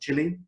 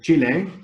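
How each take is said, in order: First: The word is said with English pronunciation. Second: The word is said with Spanish pronunciation. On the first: It follows the speaker's native language. "And so I call it Chile" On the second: It follows the country's own language. "in Spanish, of course, it's pronounced Chile"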